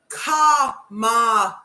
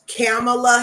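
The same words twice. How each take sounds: First: The A vowels sound like an open 'ah'. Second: The A vowels sound like the 'a' in cat. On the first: The speaker calls it right. "but it's pronounced Kamala. All the A's are Oz" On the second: The speaker calls it wrong. "Her name could be Kamala Harris"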